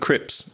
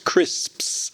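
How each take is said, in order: First: The s before the p is dropped. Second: The s before the p is pronounced. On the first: The speaker calls it wrong. "my wife does as well because she's a Spanish speaker" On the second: The speaker calls it right. "It's crisps, crisps. That's the word"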